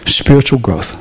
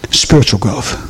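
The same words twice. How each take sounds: The two takes are said the same way.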